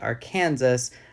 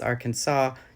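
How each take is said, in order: First: The word ends sounding like 'Kansas'. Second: The word ends with a 'saw' sound. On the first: The speaker calls it wrong. "not Arkansas" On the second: The speaker calls it right. "hence why it's Arkansas"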